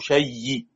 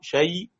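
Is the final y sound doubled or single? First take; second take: doubled; single. First: The final y is doubled and held. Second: The final y is single and light. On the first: "شيء بالتشديد مع الروم" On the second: "شيء بالسكون"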